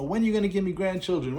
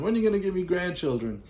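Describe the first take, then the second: First: High-pitched, quick mock nag; a lightly hammed-up nagging mom; nagging mother. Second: Higher, quick mock nagging again at the same pitch; nagging mother repeated. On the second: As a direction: keep hammering the nag, high and fast. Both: Mother pestering her son about grandchildren, high quick nag. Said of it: "the mother start messing with the big guy".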